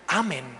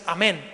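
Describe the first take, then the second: First: The stress is on the first syllable. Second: The stress is on the last syllable. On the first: "quítale la tilde al amén, quítale el acento" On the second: "la verdadera espiritualidad no es amén"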